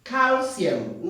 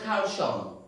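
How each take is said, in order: First: "Calcium" said as kar-see-um with s; "Calcium" with s, not sh; correct calcium. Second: "calcium" said as kar-shong, wrong. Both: Shown as a demonstration. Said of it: "not calcium".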